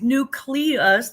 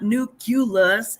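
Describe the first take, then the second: First: The middle is said as 'clee'. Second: The middle is said as 'cue'. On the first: The speaker calls it right. "the nucleus of that word is nucleus" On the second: The speaker calls it wrong. "not nucleus"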